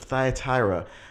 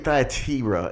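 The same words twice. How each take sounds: First: The i vowels are said long, like 'eye'. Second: The i vowels are said short, without 'eye'. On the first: This is the usual English way. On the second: This is closer to the original Greek.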